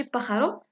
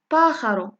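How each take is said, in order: First: باخارو with a short, unstressed first "pa"; wrong short vowel. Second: PAA in باخارو held long and louder; long stressed first vowel. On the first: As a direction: say باخارو evenly, no long first A, ending raised. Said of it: "ماشي باخارو". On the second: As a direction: stretch the first syllable of باخارو, then drop. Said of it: "كتعني المد". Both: Shown as a demonstration.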